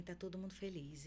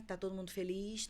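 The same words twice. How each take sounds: First: Todo mundo feliz falling, softer; a hint of a son reassuring his mother; reassuring answer. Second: Todo mundo feliz rising into a question; lightly voiced mother checking on her kids; asking question. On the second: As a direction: ask "tá todo mundo feliz?" with a rise at the end. Mother asks kids before leaving.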